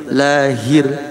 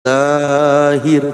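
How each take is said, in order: First: The vowel is kept short and clipped. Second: The vowel is drawn out too long. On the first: The speaker calls it right. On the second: The speaker calls it wrong.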